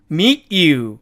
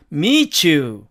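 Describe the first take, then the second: First: Meet you said slowly, each word apart with a clear t; separated meet you. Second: Meet you blended into mee-chu; linked meet you. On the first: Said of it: "이렇게 발음하는 원어민도". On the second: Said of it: "이렇게 발음이 되죠". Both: Shown as a demonstration.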